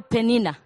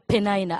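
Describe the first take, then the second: First: The name is pronounced the Ugandan way. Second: The name is pronounced the American way. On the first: "In Uganda, we call Penina" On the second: "Some Americans say Penina"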